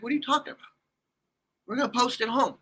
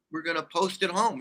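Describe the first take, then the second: First: High-pitched, incredulous question; baffled disbelief. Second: Said in the usual way. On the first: Retold or imitated. Man questioning his girlfriend's plan to post it, baffled. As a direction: throw it back as a disbelieving question.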